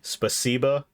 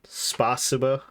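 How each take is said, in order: First: The stress falls on the second syllable. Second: The stress falls on a different syllable. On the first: The speaker calls it right. "the emphasis is on the C" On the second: The speaker calls it wrong. "not spasiba"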